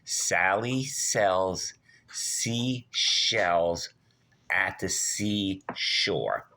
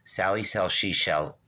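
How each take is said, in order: First: It is said slowly. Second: It is said fast.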